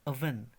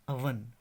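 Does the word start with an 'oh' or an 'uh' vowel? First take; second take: uh; uh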